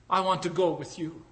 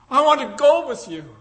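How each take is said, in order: First: Smiling. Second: High, louder joyful repeat; joyful declaration. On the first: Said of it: "And then she smiled and said". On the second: Freed woman choosing to follow Lincoln, high and joyful. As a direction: say it again with full feeling. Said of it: "she smiled and said". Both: Acted.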